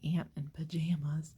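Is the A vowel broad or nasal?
nasal. The A vowels are nasal, like Northeast Ohio speech.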